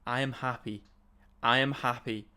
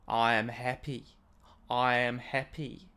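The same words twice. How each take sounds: First: It is said in the speaker's usual accent. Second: It is said in a soothing Australian accent.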